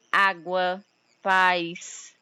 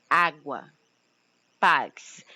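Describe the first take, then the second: First: Said in the usual way. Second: Água with the first A hit hard, paz punched louder; stressed vowels. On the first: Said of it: "Preste atenção que a vogal". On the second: Shown as a demonstration. Teacher showing her class the stressed vowel, punched louder. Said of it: "Ela é dita de uma forma mais intensa".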